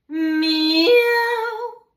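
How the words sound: The meow has a sudden break in voice. "vocal break kissa"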